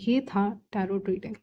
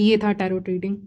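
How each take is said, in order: First: The phrase is said slowly with firm weight. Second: The phrase is said quickly and hurriedly. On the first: The speaker calls it right. "तो ऐसे नहीं, ... दबा-दबा के कह रहे हैं" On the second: The speaker calls it wrong. "कुछ लोग बहुत तेज़ी से बोल देते हैं"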